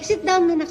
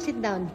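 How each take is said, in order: First: Raised calling voice; calling to sit. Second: Quiet repeat. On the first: Mother calling child to sit. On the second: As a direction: say it again under your breath. Mother repeats instruction quietly. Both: Real, not acted.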